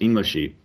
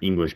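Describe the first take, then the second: First: An extra vowel is added after the final consonant. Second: The word ends on its final consonant.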